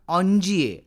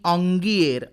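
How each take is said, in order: First: Soft j in the middle, ending without an r. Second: Hard g in the middle, ending with an r. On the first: This is how it is said in French. "फ्रेंचमध्ये त्याचा उच्चार ऑन्जिये असाच होतो" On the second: Other people say it this way. "तर कुणी ऑंगिएर असाही करतात"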